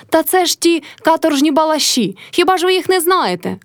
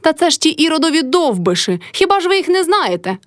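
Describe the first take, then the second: First: High shout to the gathered crowd; Motrya shouting. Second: Shrill high yell, topping the last word; old woman shrieking. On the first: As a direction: rise up and call out to the neighbours. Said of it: "кричала Мотря до людей". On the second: Mother-in-law screeches back at the crowd, very high. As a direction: screech it even higher back at her. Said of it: "репетувала баба Кайдашиха". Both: A narrator's reading.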